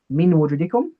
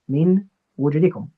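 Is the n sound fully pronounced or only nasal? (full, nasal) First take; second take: nasal; full. First: The n is only a nasal sound, without tongue. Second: The n is fully pronounced with the tongue. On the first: "I get rid of the tongue component of the noon, and I only engage the nose" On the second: "So the origin is min wujudikum"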